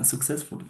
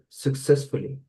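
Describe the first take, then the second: First: Uh, successfully said softly, the last syllable dropped; a tentative repeat of successfully, ending in successful; student echoes the teacher's successfully, a bit unsure. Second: Successfully with stress on CESS, suk-SESS-ful-ly; teacher models Successfully for the student; model pronunciation. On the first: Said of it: "Repeat it after me". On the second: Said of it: "Repeat it after me, [name]". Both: Shown as a demonstration.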